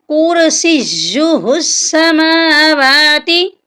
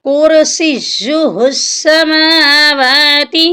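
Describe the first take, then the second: The two takes are said the same way.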